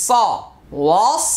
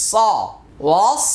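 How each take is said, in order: No difference in how they are said.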